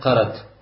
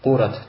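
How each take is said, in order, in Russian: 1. Первый гласный — звук 'a'. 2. Первый гласный — звук 'u'. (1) "то есть с фатхой над «каф»" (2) "то есть с даммой над «каф»"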